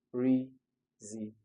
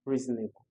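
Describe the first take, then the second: First: "Reasonable" slowly broken into its four syllables. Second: Said in the usual way. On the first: Shown as a demonstration. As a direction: count out "Reasonable" in separate, drawn-out syllables. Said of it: "So that's four-syllabic word". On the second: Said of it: "Why is it four-syllabic?".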